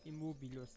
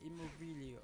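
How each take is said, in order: First: The word ends without the i sound: -us. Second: The word ends with an extra i sound: -ius. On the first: The speaker calls it right. "Immobilus, glaube ich" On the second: The speaker calls it wrong. "Nicht Immobilius"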